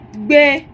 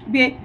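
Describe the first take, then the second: First: The word is said on a high tone. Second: The word is said on a mid tone. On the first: It means to live somewhere. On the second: It means to carry.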